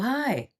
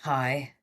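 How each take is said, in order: First: The greeting sounds warm and pleased. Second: The greeting sounds cold and hostile. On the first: The caller is a loved family member. "It's your mother" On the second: The caller is someone disliked. "It's your it's your enemy"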